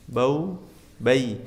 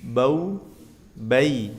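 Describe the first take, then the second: No difference in how they are said.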